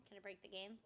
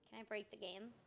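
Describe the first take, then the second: No difference in how they are said.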